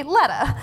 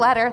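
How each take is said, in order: First: LETTA ending in uh, no R; Southern dropped R. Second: Said in the usual way. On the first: Shown as a demonstration. Judge gives an example of Southern accent, dropped R. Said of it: "letter R is often not pronounced".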